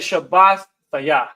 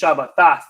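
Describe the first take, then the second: First: The root word stays whole before the ending. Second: The ending runs together with the word. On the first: This keeps the root word recognizable. "but I say Shabbat Thayah" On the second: This follows the added modern rules. "they may pronounce this Shabbatah"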